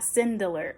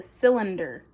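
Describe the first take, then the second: First: The middle sounds come out as 'de-ler'. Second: The middle sounds come out as 'lin-der'. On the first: The speaker calls it wrong. "not cindeler" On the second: The speaker calls it right. "I actually got it this time. It's a cylinder"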